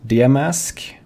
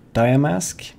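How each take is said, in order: First: "Diamask" said as dee-a-mask, slow and rising; unsure name reading. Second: "Diamask" said as dye-a-mask, rising; name tried again. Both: Shown as a demonstration.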